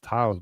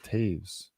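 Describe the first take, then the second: First: The vowel sounds like 'ow' in 'now'. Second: The vowel sounds like 'ay' in 'day'. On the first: The speaker calls it wrong. "I thought it was Taos" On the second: The speaker calls it right. "but it's Taves"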